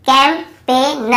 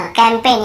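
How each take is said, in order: First: campaign broken up as "kam... pe... na"; slow model reading. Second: Said in the usual way. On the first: Shown as a demonstration. Teacher sounds it out for learners, campaign slowly in pieces. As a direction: split campaign slowly into parts, no g. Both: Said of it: "यहाँ पर भी जी silent है".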